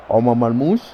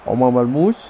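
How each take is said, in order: Both takes have the same delivery.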